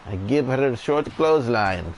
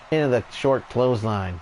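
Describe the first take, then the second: First: Quoting the wrestler with a put-on accent; a put-on accent for the wrestler's line; Iron Sheik impression. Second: Said in the usual way. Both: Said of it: "That's a part of a story with the Iron Sheik".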